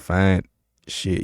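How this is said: There is a pause between the two words. The speaker calls it wrong. "You don't pause"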